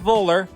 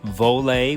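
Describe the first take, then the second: First: The name ends with an 'er' sound. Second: The name ends with an 'ay' sound. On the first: The speaker calls it wrong. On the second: The speaker calls it right.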